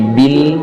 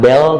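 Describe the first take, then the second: First: The vowel sounds like i. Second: The vowel sounds like e. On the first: The speaker calls it right. "tapi bil" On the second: The speaker calls it wrong. "bukan bel"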